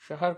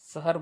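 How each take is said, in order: First: The word begins with a sh sound. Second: The word begins with an s sound. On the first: The speaker calls it right. "शहर को" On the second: The speaker calls it wrong. "हम शहर बोलते हैं"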